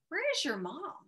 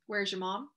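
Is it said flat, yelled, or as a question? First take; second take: question; flat. First: It is asked with a questioning tune. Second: It is said flat, like a plain statement. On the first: It is a real question. The speaker calls it right. "It would have to be a question mark" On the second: It is a plain statement. The speaker calls it wrong. "so we put a period"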